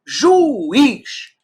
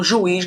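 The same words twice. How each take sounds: First: "juiz" drawn out in two syllables, ju-iz. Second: Said in the usual way. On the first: Shown as a demonstration. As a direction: stretch "juiz" slowly with a raised pitch, splitting u from i. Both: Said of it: "Fica um em cada sílaba".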